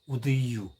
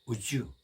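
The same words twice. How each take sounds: First: It is said slowly and separately. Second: It is said fast and run together.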